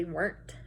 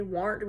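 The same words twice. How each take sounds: First: Said in the usual way. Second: "weren't" said as "warn't", with an ar vowel; old rural "warn't" for "weren't"; dialect "warn't". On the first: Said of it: "We don't say weren't". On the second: Shown as a demonstration. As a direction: say "weren't" to rhyme roughly with "aren't". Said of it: "we say weren't or wasn't".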